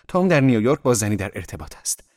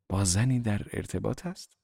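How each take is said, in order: First: Said in the usual way. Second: Dazed echo with rising question; blank echo. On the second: A narrator's reading. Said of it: "گویی در خلأ بودم. تکرار کردم". (تکرار گیج و پرسشی)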